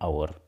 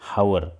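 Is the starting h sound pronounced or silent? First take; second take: silent; pronounced. First: The word begins with a vowel, no h. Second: The word begins with an audible h sound. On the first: The speaker calls it right. "उच्चार जो आहे, pronunciation जे आहे ते अशा पद्धतीने करायचं असतं" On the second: The speaker calls it wrong. "आपण असं म्हणत नाही"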